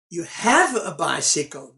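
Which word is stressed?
have. The stress falls on the word have. This person really does have one. "meaning you really have a bicycle"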